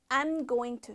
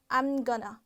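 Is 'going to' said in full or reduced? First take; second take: full; reduced. First: Each word is pronounced fully and separately. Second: The words are said quickly and run together.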